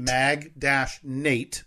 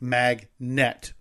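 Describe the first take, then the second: First: The second syllable rhymes with 'Nate'. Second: The second syllable sounds like 'net'. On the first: "like the name Nate" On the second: "like internet"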